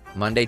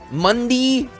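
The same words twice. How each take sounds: First: It is said in an ordinary, plain speaking voice. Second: It is said in a showy, announcer-style voice.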